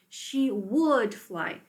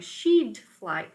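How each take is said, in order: First: The first two words are said fully and separately. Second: The first two words are contracted into one syllable.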